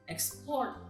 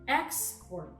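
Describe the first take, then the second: First: The stress is on the last syllable. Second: The stress is on the first syllable. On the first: It is a verb. "while in the verb, the stress is in the last syllable" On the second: It is a noun. "In the first column with nouns, the first syllables are written in bold letters, meaning the stress is in the first syllable"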